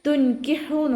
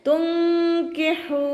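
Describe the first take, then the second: First: The h is a plain, light breathy h. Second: The h is a tense sound from mid-throat. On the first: The speaker calls it wrong. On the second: The speaker calls it right.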